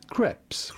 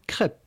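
First: The word ends with an S sound. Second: The word ends without an S sound. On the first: "in English or American, it'd be fine to say crepes" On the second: "In French, we would say crepe. ... The S at the end in French is silent"

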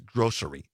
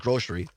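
First: The middle consonant is an s sound. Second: The middle consonant is an sh sound. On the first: This is the standard way. The speaker calls it right. "I know the correct way is grocery" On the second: This is the speaker's habitual regional way. The speaker calls it wrong. "I've always said grocery"

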